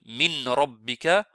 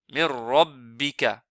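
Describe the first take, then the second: First: The n sound is clearly pronounced before r. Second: The n merges fully into a doubled r. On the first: The speaker calls it wrong. "il prononce nun" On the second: The speaker calls it right. "On fait rentrer complètement noun dans la lettre Ra"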